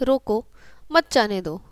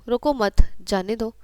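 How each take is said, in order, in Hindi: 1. 'roko' के ठीक बाद विराम है। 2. 'mat' के ठीक बाद विराम है। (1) "एक छोटा सा अल्प विराम कैसे वाक्य का अर्थ बदल रहा है" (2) "एक छोटा सा अल्प विराम कैसे वाक्य का अर्थ बदल रहा है"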